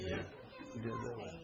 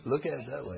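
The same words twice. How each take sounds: First: Soft, slow, laughing half-whisper; breathy laughing repeat. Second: Said in the usual way. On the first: Real, not acted. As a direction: say it again under your breath while still chuckling. Repeated softly through laughter.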